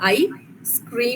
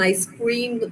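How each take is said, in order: First: A short break separates the two parts. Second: The two parts run together without a break.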